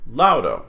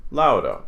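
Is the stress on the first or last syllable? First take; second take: first; first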